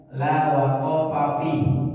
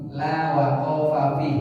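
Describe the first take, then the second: Both takes have the same delivery.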